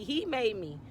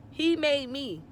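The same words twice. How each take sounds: First: Said in the usual way. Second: Higher, louder, voice straining with hurt; He made me pushed up high and loud, on the edge of tears; choked-up repeat. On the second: Real, not acted. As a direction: let the pain break into the repeat of He made me. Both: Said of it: "I'm gonna get emotional".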